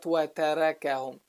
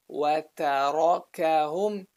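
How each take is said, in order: First: "وَتَرَكَهُمْ" with thin "ræ" for ra; wrongly all light. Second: "وَتَرَكَهُمْ" with dark, back "rah" between light syllables; heavy ra. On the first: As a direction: keep every vowel front in "وَتَرَكَهُمْ". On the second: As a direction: thicken the ra in "وَتَرَكَهُمْ". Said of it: "to heavy letter back to light". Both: Shown as a demonstration.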